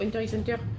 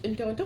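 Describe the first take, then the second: First: The X in the middle is pronounced. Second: The X in the middle is silent. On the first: "avant, je disais Enter X Hunter" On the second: "le X il se prononce pas"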